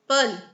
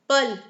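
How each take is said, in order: Both takes have the same delivery.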